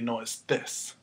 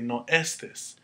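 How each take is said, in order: First: The stress is on the last syllable of estés. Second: The stress is on the first syllable of estés. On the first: The speaker calls it right. "We want it to say no estes" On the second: The speaker calls it wrong. "if we took away the accent, it would say no estes"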